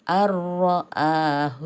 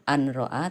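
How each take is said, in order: First: The n merges completely into the r. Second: The n is pronounced clearly before the r. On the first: The speaker calls it right. "nun matinya melebur" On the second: The speaker calls it wrong. "tidak dibaca an"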